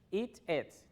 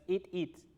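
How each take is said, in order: First: The vowel in 'it' sounds like 'e'. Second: The vowel in 'it' sounds like 'ee'. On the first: The speaker calls it right. "Es eat it" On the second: The speaker calls it wrong. "No es eat it"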